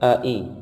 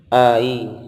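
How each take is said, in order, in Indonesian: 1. Setiap vokal dimulai dengan hentian tenggorokan yang jelas. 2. Kedua vokal menyambung tanpa hentian tenggorokan. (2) "tidak boleh hanya didorong"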